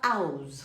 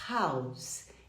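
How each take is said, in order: First: The word starts without an h sound. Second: The word starts with an audible h sound. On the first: The speaker calls it wrong. "Você não fala house" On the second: The speaker calls it right. "você fala house"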